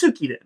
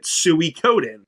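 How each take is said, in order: First: The name is said with a Japanese-style pronunciation. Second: The name is said with an English-style pronunciation. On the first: This is the original pronunciation. "it's Japanese and it's Suikoden. That's how you pronounce it" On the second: This is how the speaker has always said it. "I always called it Suikoden"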